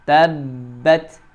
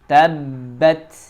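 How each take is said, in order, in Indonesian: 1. Bunyi b ditekan dan ditahan. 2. Bunyi b ditekan dan ditahan.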